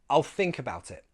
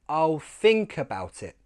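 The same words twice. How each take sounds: First: The sentence is said fast. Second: The sentence is said slowly. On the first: "Now faster" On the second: "slowly first"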